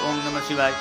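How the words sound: It is murmured softly with moving lips. This is the middle form of chanting. "આમ બોલીએ હોઠ હલતા હોય"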